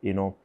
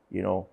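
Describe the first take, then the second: No difference in how they are said.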